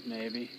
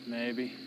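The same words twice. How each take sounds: The two takes are said the same way.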